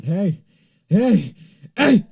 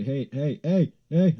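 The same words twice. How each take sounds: First: High, very loud re-enacted yell; screaming. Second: Re-enacted calls, rising in pitch and volume; calling out. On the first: Screaming at the passerby who dropped cash, urgent yell. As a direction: scream it after someone walking away. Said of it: "I start screaming". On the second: Calling to the passerby who dropped cash, building call. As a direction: call after someone, building from normal to raised. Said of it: "I say".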